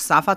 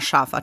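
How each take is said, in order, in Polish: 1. Słowo zaczyna się zwykłym dźwiękiem s. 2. Słowo zaczyna się dźwiękiem sz. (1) "dziecko na przykład 7-8-letnie nie powie już safa" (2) "tylko poprawi na szafa"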